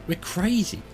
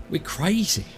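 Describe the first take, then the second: The two takes are said the same way.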